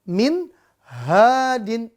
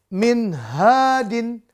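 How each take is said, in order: Both takes have the same delivery.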